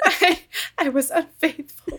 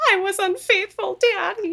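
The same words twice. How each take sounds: First: Giggling through the line, higher and slower; can barely get it out for laughing; laughing at the melodrama; laughing quote. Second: Higher, hammed-up wailing confession; imitating a dramatic TV confession; mock melodramatic confession. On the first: Retold or imitated. Repeating the quote while laughing. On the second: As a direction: overplay the guilty daughter. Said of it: "she's just".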